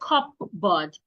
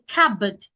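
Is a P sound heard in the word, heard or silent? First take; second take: heard; silent. First: A P sound is pronounced in the word. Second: No P sound is pronounced in the word. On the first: The speaker calls it wrong. "Do not say" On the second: The speaker calls it right. "The P is silent"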